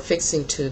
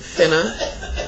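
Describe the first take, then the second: First: Both words are said fully and separately. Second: The words are squeezed into one short word. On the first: "For fixing to" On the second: "they'll say finna"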